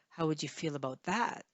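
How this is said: The word that carries the main stress. "maybe you want to stress that"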